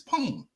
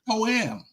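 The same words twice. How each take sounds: First: The word is said with one syllable. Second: The word is said with two syllables. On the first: The speaker calls it right. "It's poem. ... This one syllable word" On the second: The speaker calls it wrong. "Y'all making a two-word syllable. It's not poem"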